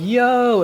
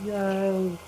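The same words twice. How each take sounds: First: High, loud, held "Yo"; calling out. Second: Softer, drawn-out "Yo" call; far-off answering voice. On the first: Game master imitates the player running around, calling out loudly. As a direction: holler it while searching around. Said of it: "running around going". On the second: Game master imitates the phantom voice answering, a distant call. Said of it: "you hear another voice going". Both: Acted.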